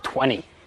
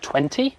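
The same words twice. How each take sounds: First: The T sound is dropped, Australian style. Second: The T sound is clearly pronounced. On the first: "drop every T" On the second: "instead of"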